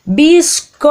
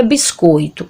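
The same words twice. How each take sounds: First: Biscoito called out high, the O held long; louder call. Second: Said in the usual way. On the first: Acted. Child calling to a mother who didn't hear, louder drawn-out call. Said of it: "aí você vai falar mais alto". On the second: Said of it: "Ela não escuta".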